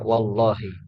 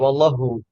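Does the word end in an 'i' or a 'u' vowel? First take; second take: i; u. First: The word ends with the kasrah 'i' vowel. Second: The word ends without the kasrah 'i' vowel. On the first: The speaker calls it right. "maksudnya wallahi" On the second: The speaker calls it wrong. "tidak boleh dibaca wallahu"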